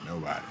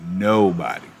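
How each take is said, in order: First: Barely voiced, dropped way down; murmured answer. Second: Said in the usual way. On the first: Real, not acted. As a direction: say it almost under your breath, softer. Answer to own question, near silent.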